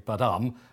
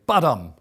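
First: The stress is on the second syllable. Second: The stress is on the first syllable. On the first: The speaker calls it wrong. "you don't say badam" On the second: The speaker calls it right. "you always say badam ... the accent comes on the strong beat rather than with an upbeat"

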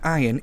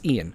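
First: The name begins with an "eye" sound. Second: The name begins with an "ee" sound. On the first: The speaker calls it wrong. "It's not Ian" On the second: The speaker calls it right. "it's pronounced with an E"

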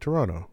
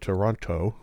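First: The second t is dropped. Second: The second t is clearly pronounced. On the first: This is how people who live there say it. "you say Toronto. You lose that T" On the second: This is how people who do not live there say it. "you don't say Toronto"

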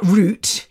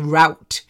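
First: The word is said in a British accent. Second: The word is said in an American accent. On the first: The speaker calls it right. "not route" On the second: The speaker calls it wrong. "when Americans say route"

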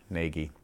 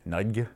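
First: The name rhymes with the word Navy. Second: The G and Y merge into one choked sound. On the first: "it is Nagy, like Navy" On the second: "they conflate the G and the Y together, so it sounds like you're choking"

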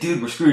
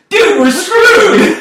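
First: It is said in a gloomy, downbeat tone. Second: It is said in a cheerful, upbeat tone.

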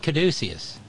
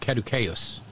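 First: The word is pronounced the ordinary English way. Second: The word is pronounced the Latin way.

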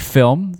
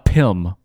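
First: It is said in an American accent. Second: It is said in a Filipino accent. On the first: A movie made in Hollywood. "a movie made here in America" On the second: A movie made in the Philippines. "a Filipino movie"

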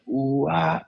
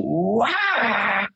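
First: It is a lower, calmer call. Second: It is a higher, more intense call.

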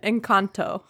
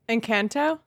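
First: It has a more Spanish-like pronunciation. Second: It has a strongly anglicized English pronunciation. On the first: The speaker calls it right. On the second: The speaker calls it wrong.

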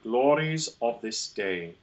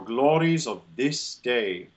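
First: A glottal break comes before the word of. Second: The word glories links smoothly into of.

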